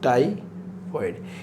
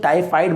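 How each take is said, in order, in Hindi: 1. दूसरा अक्षर 'foid' जैसा सुनाई देता है। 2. दूसरा अक्षर 'fide' जैसा सुनाई देता है। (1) "इसे बोलते हैं टाइफॉइड" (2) "टाइफाइड नहीं बोलते"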